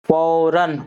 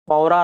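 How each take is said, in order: First: The word ends with an 'n' sound. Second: The word ends with a vowel. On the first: The speaker calls it right. "तनवीन की आवाज़ आ रही है, नून की आवाज़" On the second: The speaker calls it wrong. "फ़ौरा नहीं पढ़ेंगे"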